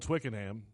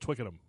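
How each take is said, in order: First: Every syllable is said in full, as spelled. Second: It is said quickly with the ending reduced. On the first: The speaker calls it wrong. "It's spelled Twickenham, but we're not in Alabama" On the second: The speaker calls it right. "so it's Twickenham"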